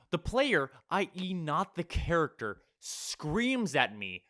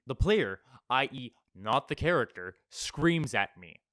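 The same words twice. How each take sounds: First: Slow, drawn-out re-reading in disbelief; stunned rereading of the line; incredulous reread. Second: Said in the usual way. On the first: Shown as a demonstration. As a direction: let "screams at me" hang, spelled out slowly. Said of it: "re-reads the line in disbelief".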